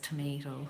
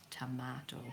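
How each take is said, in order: First: Tomato is said with an American accent. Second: Tomato is said with an Irish accent. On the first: The speaker calls it wrong. "She has an American accent" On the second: The speaker calls it right. "We say tomato"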